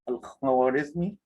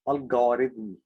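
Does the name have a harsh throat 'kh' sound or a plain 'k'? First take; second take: harsh kh; plain k. First: It has a harsh throaty kh sound. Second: It has a plain k sound instead. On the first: This is the original Arabic pronunciation. "In Arabic, his name is Al-Khwarizmi ... instead of saying" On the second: This is how English speakers say it. "they are saying"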